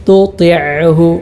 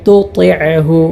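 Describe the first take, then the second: No difference in how they are said.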